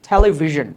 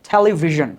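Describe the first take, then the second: No difference in how they are said.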